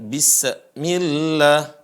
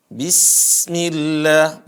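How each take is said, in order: First: "bismillah" chopped after the S, "bissə-millah"; broken sin. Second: "Bismillah" with a long thin S streaming straight into the m; flowing sin. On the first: Teacher shows the mistake, "bismillah" split after the sin. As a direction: insert a small break and vowel after the S of "bismillah". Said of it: "bukan bismillah". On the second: Teacher shows the sin, "Bismillah" chanted with a flowing hiss. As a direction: let breath flow through the S of "Bismillah". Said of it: "suaranya dialirkan, begitu juga napasnya dialirkan". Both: Shown as a demonstration.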